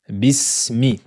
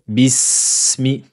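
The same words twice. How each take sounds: First: The s is held for a moderate length. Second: The s is held for an excessive length. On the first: The speaker calls it right. "donnez-lui son temps" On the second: The speaker calls it wrong. "n'exagérez pas en disant bismi"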